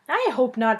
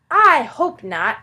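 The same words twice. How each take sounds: First: It is said in the narrator's normal voice. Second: It is said in a put-on dragon voice.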